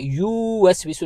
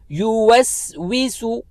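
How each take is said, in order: First: The first vowel is drawn out long. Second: The first vowel is kept short. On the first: The speaker calls it wrong. "हमने युवस्विसु नहीं पढ़ना" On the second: The speaker calls it right. "एक हरकत की मिकदार खींचेंगे, ज्यादा लंबा नहीं पढ़ना"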